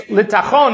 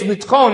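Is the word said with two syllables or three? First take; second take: three; two. First: The word is said with three syllables. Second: The word is said with two syllables. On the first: The wheat is being taken to the miller. "If you're saying it's litachon, means you're taking it to the miller" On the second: The wheat is being taken to be milled. "If you say it's litchon, means that you're taking it to be milled"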